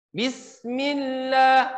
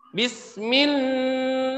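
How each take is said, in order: First: Bismillah with the lam kept short, slow even pace; correct short lam. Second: Bismillah with the lam held too long; wrong drawn lam. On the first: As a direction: clean tajwid Bismillah. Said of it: "seperti itu ya". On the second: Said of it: "Nah, nggak boleh kayak gitu". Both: Shown as a demonstration.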